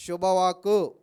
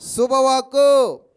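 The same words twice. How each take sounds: First: Said in the usual way. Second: Loud and very slow, each syllable drawn out; stretched, loud శుభవాక్కు; emphatic answer. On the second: Shown as a demonstration. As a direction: make the congregation hear it. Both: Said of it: "చెప్పండి, ఏంటంటే అది?".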